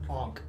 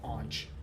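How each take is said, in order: First: The word ends with a k sound. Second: The word ends with a ch sound. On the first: The speaker calls it right. "Onk, not aunch" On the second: The speaker calls it wrong. "not aunch"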